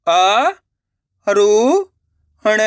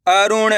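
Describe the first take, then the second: First: अ, रु, ण split by pauses; syllable by syllable. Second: Said in the usual way. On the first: Shown as a demonstration. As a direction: sound out अ, रु, ण one at a time. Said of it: "एक एक अक्षर का उच्चारण करके". (अ, रु, ण एक-एक अक्षर रुक-रुक कर) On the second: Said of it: "direct मात्रा का उच्चारण करके पढ़ेंगे".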